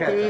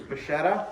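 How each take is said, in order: First: The middle consonant is a hard K sound. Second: The middle consonant is a soft CH sound. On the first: The speaker calls it right. "the C C H sound in Italian is definitely a K" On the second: The speaker calls it wrong. "I've been pronouncing it wrong"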